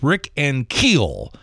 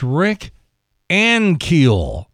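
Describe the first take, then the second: First: The stress is on the second syllable of Ankiel. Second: The stress is on the first syllable of Ankiel. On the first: The speaker calls it wrong. "He says Rick Ankiel, and there's no accent on the second syllable" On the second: The speaker calls it right. "accent on the first syllable"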